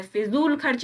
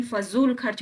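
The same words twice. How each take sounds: First: फिजूल said "fi-zool"; short "i" opening फिजूल; फिजूल खर्च as "fizool kharch"; wrong first vowel. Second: फजूल said "fa-zool"; short "a" opening फजूल; फजूल खर्च as "fazool kharch"; correct first vowel. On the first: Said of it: "फिजूल खर्च नहीं". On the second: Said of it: "फजूल खर्च होता है". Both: Shown as a demonstration.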